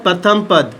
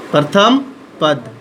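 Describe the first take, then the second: First: Said in the usual way. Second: "प्रथम" rising, long pause, then "पद" falling; word-by-word dictation. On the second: Shown as a demonstration. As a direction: dictate "प्रथम", hold, then drop onto "पद". Repeats term in parts for students. ("प्रथम" पर सुर उठाकर रुकें, फिर "पद" नीचे सुर में)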